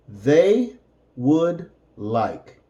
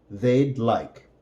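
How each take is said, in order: First: "They would like" said slowly, each word apart; slow teacher model; slow separated words. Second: Said in the usual way. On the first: Shown as a demonstration. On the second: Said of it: "and then with the contraction".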